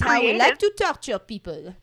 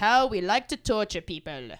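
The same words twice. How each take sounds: First: It is said in a put-on French accent. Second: It is said in the speaker's ordinary accent.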